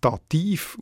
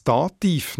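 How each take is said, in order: First: Dativ as da-TIV, weight on the end; accent the last syllable of Dativ, like Stativ; stress on second syllable. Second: Said in the usual way. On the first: Shown as a demonstration. Editor trying the logical alternative, Dativ stressed on -tiv. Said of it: "nicht Dativ ausgesprochen". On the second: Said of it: "wieso das Dativ nach dieser Logik".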